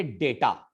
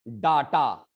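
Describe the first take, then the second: First: "डेटा" as DAY-taa; English pronunciation. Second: "डाटा" as DAA-taa, long a in both syllables; Hindi-style pronunciation. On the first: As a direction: open "डेटा" with a long ay. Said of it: "इसको हम लोग बोलेंगे". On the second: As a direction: say "डाटा" with an open first aa. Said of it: "डाटा तो नहीं इसको बोलेंगे". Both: Shown as a demonstration.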